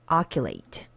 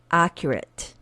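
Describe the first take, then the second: First: The word is said with distorted, nonstandard sounds. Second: The word is said with its standard sounds. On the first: The speaker calls it wrong. "I pronounce accurate incorrectly on purpose" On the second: The speaker calls it right. "let's fix this by speaking over it one more time"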